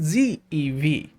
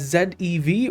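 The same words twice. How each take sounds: First: The letters are said the American way. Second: The letters are said in a non-American way.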